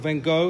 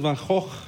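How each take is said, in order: First: The name is said with an American pronunciation. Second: The name is said with a Dutch/Afrikaans pronunciation. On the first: "as Americans say" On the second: "I'm Afrikaans, so Afrikaans is a Dutch derelict. It's Gogh"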